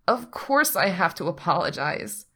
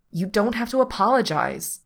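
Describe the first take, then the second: First: Miserable, insistent self-blame. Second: Higher, louder, fierce insistence. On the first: Pete insists to Patrick he is at fault, miserable. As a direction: insist on your guilt, wretchedly. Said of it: "Pete insists miserably". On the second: Patrick stops Pete apologising on the drive, fierce. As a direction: firmly refuse the apology. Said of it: "Patrick says fiercely". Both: A narrator's reading.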